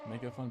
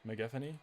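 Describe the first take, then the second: First: The word ends with a plain 'phone' sound. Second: The word ends with a 'phony' sound.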